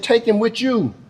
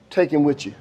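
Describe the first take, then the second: First: Higher-pitched mother's dismissal; acted insistence in a raised pitch; emphatic repeat. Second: Said in the usual way. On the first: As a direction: push the words up high, handing him off.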